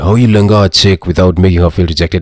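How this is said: It is said in a put-on Doctor Love voice.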